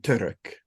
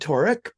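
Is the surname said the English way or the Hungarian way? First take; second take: Hungarian; English. First: The name is said with a Hungarian pronunciation. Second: The name is said with an English pronunciation. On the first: This is how the name would be said in Hungary. "if we were in Hungary, it would be Turek" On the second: This is how the name is said outside Hungary. "I'm [name]"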